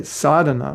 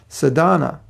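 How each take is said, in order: First: "sadhana" as SAA-dha-na, first syllable long. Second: "sadhana" as sa-DAA-na, middle syllable long; long second syllable. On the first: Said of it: "which has a long A in the beginning". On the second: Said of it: "the second syllable of words is commonly longer". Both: Shown as a demonstration.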